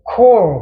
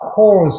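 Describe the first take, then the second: First: The word ends on an r sound, no final consonant. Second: The word ends with an added z sound. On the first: It refers to a single unit. "단수일 때는 core 그랬습니다. 뒤에 발음 안 했어요" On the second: It refers to several units. "복수일 때는 calls 복수 표시 개념을 해야 되니까"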